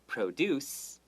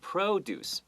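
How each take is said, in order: First: The stress is on the second syllable. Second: The stress is on the first syllable. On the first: It is the verb meaning to make. "where we put the emphasis on the deuce" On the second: It is the noun meaning farm goods. "把 emphasis 放在 pro 上面这个名词"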